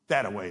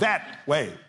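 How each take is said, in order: First: An extra vowel joins the words, West Texas style. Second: The two words are said plainly, without an extra vowel.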